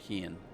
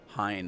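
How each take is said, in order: First: The name's vowel sounds like 'ee'. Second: The name's vowel sounds like 'eye'. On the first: The speaker calls it wrong. "I pronounced it wrong" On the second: The speaker calls it right. "I'll call him Hein instead of Heen"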